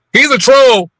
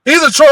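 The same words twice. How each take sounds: First: Said in the usual way. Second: Mock yell it; quoted shout; retold shout. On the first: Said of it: "repeat louder".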